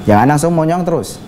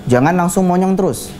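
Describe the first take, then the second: The two takes are said the same way.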